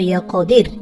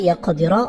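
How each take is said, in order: First: The word ends on a bare 'r' sound. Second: The word ends with a short 'a' vowel. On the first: The reader stops at this word. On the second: The reading continues without stopping.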